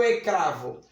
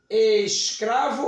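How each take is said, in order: First: Ecravo with the S dropped; wrong pronunciation. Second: Escravo with the S clearly sounded; careful pronunciation. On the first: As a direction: say ecravo, leaving out the S. (ecravo sem o S) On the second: (escravo com o S bem pronunciado) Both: Shown as a demonstration. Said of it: "Eu pronuncio foneticamente escravo ou".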